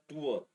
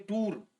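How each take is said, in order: First: टूअर said in two parts, "too-ur", with a soft second vowel; correct pronunciation. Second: टूर said as one short syllable, "toor", like tour; wrong pronunciation. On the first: Teacher giving students the right form: टूअर in two beats. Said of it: "इसका pronunciation होता है टूअर". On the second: Teacher showing students the wrong way: टूर as one flat syllable. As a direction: clip टूर to a single syllable as the common mistake. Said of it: "ये गलत pronunciation है". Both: Shown as a demonstration.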